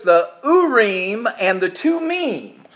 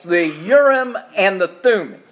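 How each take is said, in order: First: The names are pronounced the Hebrew way. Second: The names are pronounced the English way. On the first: "In the Hebrew" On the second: "what the King James translates"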